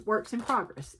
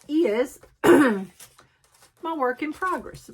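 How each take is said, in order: First: "works" with the plural s said clearly; quick plain self-correction stressing "works"; corrected plural. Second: Said in the usual way. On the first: Real, not acted. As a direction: fix it to "works in progress".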